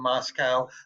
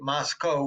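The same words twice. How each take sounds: First: The last syllable does not rhyme with Costco. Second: The last syllable rhymes with Costco. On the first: This is how outsiders say it. The speaker calls it wrong. "rather than Moscow" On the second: This is how the local people say it. The speaker calls it right. "the locals say you pronounce it Moscow ... They want the name ... to rhyme with Costco"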